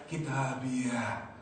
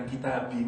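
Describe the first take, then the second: First: "kitabiyah" with an added, drawn-out "-yah" ending; "kitabiyah" ending in a long "ee-yah"; long ending -iyah. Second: "kitabi" ending on a simple "ee", without "-yah"; "kitabi" with no "-yah" tail; short ending -i. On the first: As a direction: say "kitabiyah" slowly, ending on an open "-ah". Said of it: "bukan kitabi". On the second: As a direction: say "kitabi" and stop at the "bi". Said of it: "Mestinya kitabi". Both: Shown as a demonstration.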